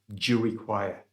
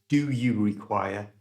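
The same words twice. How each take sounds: First: 'Do you' is reduced to a single 'j' sound. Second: Both words of 'do you' are said in full. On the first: "do you was pronounced as J" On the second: "it wasn't do you require"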